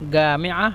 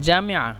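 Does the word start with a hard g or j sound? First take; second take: hard g; j. First: The word begins with a hard g sound. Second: The word begins with a j sound.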